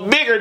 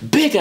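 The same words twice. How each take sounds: First: The word is said flatly, with little energy. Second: The word is said with lively, breathy animation. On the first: The speaker calls it wrong. "bigger just sounds so boring" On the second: The speaker calls it right. "It gives a lot more animation to the voice"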